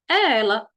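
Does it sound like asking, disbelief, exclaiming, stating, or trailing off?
stating. The voice falls at the end like a statement. The speaker asserts who it is. "Você está afirmando"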